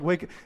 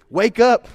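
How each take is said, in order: First: It is said softly and gently. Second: It is said sharply and urgently. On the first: Someone is being roused slowly and kindly. "this isn't like gradual, scratchy back" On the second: Someone must get up immediately. "That's the kind of wake up that he's talking about right here. There's a sense of urgency"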